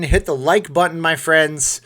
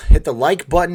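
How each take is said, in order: First: Said in the usual way. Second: Minnesota-free, louder punchy call: "Hit the like button"; loud call to viewers. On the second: Acted. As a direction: shout the ask to hit like, louder. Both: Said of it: "calling viewers to like".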